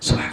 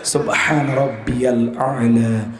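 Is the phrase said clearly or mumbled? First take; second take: mumbled; clearly. First: The phrase is mumbled quickly like a hiss. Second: The phrase is said clearly and fully.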